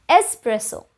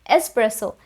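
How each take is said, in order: No difference in how they are said.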